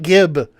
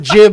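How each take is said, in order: First: It begins with a hard G sound. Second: It begins with a soft J-like sound. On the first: The speaker calls it wrong. "We were naive to call it gib" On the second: The speaker calls it right. "is the actual pronunciation"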